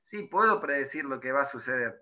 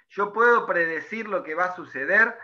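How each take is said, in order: First: "puedo" stressed, pitch dropped and a touch softer, settling into a flat confirming statement; confirming answer. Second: "puedo" stressed, voice rising to the end as a question to the class; rhetorical question. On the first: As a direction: answer your own question calmly, falling at the end. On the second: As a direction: ask "¿Yo puedo predecir...?" as a teacher's rhetorical question, lifting at the end. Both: Shown as a demonstration.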